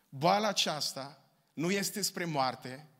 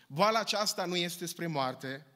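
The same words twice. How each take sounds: First: It is spoken more slowly and deliberately. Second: It is spoken at a normal, quicker pace.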